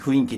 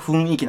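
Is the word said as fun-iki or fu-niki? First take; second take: fu-niki; fun-iki. First: The n runs into the i: fu-niki. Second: The n is kept separate: fun-iki.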